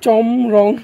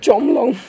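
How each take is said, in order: First: The middle consonant is an R sound. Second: The middle consonant is an L sound. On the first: The speaker calls it right. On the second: The speaker calls it wrong.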